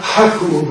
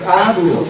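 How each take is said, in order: First: "haku" with an audible h at the front; wrong rough breathing. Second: "aku" opening straight on the vowel, no h; correct smooth breathing. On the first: Teacher showing students the mistake, "haku" with a breathy h. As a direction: start "haku" on a puff of h. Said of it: "See, it's not haku". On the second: Teacher correcting students' breathing mark, "aku" with no h. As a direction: begin "aku" cleanly on ah, without h. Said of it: "it's not haku, but ak". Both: Shown as a demonstration.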